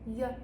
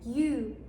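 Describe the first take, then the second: First: The vowel is reduced to a weak schwa. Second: The word has a full 'oo' vowel. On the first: The speaker calls it right. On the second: The speaker calls it wrong.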